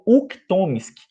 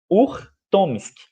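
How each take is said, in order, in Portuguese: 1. A consoante depois da primeira vogal é um K. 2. A consoante depois da primeira vogal é um R. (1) "muitas pessoas conhecem ele como Uktomsky" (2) "que se chama Urtomsky"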